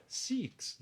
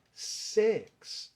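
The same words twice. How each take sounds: First: "six" with a tense Brazilian I, like "siks"; mistaken pronunciation. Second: "sex": six said with an open E, drawn out; corrected E sound. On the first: Teacher quotes the common mistake, "six" as "seeks". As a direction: say "six" with an EE vowel, raised. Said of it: "Não, é sex". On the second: Teacher corrects students' six, "sex" with long E. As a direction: stretch "sex" slowly on an E vowel. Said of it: "Tem som de E". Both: Shown as a demonstration.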